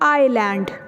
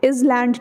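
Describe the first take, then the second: First: The s sound is silent. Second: An s or z sound is pronounced. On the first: The speaker calls it right. "It will be आइलैंड" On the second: The speaker calls it wrong. "इज लैंड नहीं होगा"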